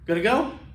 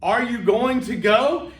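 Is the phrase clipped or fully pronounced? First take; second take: clipped; full. First: The words are shortened and run together. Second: Each word is pronounced separately and fully. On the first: The speaker calls it wrong. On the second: The speaker calls it right.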